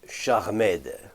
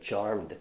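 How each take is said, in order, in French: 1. La terminaison se prononce comme une syllabe en plus. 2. Le mot se prononce en une syllabe. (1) "le cas de Jojo qui prononce charmed" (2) "ça se prononce charmed, c'est euh, en anglais euh, charmed"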